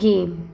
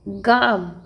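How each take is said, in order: First: The vowel is said as 'e'. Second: The vowel is said as 'aa'. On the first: The speaker calls it right. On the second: The speaker calls it wrong.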